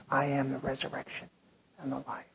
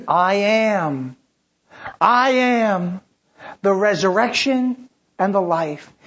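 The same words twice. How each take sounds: First: Softer, tender comfort; hushed. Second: Louder, ringing declaration; proclaimed. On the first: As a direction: speak it gently to those grieving. Same words softly to the grieving. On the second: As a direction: announce it to the whole church. Proclaiming Jesus' words loudly. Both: Acted.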